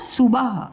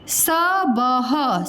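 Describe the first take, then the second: First: The first vowel is a u sound. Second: The first vowel is an a sound. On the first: The speaker calls it right. "उसको क्या करना है सुबह" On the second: The speaker calls it wrong. "सबह लिखा है"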